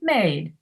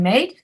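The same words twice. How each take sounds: First: The pitch falls on the word. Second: The pitch rises on the word. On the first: "that falls" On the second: "that rises"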